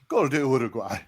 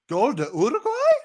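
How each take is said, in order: First: It sounds pleading, as if negotiating. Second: It sounds disbelieving, refusing to accept it. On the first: Maybe the goal can somehow be undone. "Then bargaining" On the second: The goal cannot really have happened. "give me a denial"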